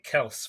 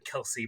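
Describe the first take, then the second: First: The name is said as one syllable. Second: The name is said as two syllables. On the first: The speaker calls it wrong. "I was pronouncing it Kels first" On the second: The speaker calls it right. "it's actually Kelsey Brothers"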